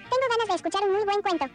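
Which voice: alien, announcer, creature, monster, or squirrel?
creature. It is said in a tiny creature voice.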